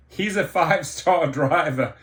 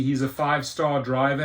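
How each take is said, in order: First: Scoffing laugh breaking into the words; incredulous laughing. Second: Said in the usual way. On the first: Real, not acted. Driver mocks the CEO's five-star claim, laughing in disbelief.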